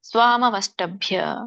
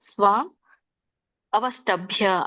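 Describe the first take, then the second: First: The two words run together without any break. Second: The two words are said separately, with a break. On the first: "ಕೂಡಿಸಿದ್ರೆ ಸ್ವಾಮವಷ್ಟಭ್ಯ" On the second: "ಬಿಡಿಸಿದಾಗ ಸ್ವಾಮ್ ಅವಷ್ಟಭ್ಯ ಆಗುತ್ತೆ"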